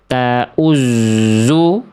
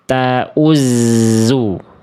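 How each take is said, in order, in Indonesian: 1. Bunyi z mempertahankan pembulatan bibir dari vokal di depannya. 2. Bunyi z tipis, pembulatan bibirnya dilepas. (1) "Yang A salah karena kadar tipis huruf zai-nya belum belum terjaga, karena masih ke bawah monyong" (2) "yang tepat adalah yang B... Dari monyong ditarik"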